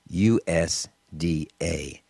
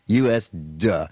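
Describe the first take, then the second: First: It ends with the letters D and A spelled out. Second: It ends with a single short 'duh' syllable. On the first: It names the agriculture department neutrally. The speaker calls it wrong. "I've been mispronouncing it for so long. I thought it was pronounced U S D A" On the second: It mocks the agriculture department as stupid. The speaker calls it right. "He pronounces it the correct way. It's U S duh"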